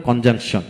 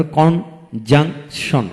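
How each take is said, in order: First: Said in the usual way. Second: conjunction in three slow beats, kon, jang, shon; long gaps inside conjunction; split into syllables. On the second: Shown as a demonstration. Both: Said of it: "তিনটি syllable থাকে".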